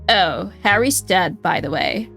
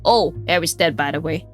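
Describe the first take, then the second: First: It is in a Valley Girl accent. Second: It is in the detective's usual voice.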